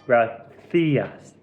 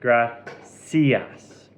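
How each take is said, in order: First: The c is sounded like a th. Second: The c is sounded like an s. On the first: "In Spain, you would pronounce it gracias, theas, with the little lips" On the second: "you can say the C"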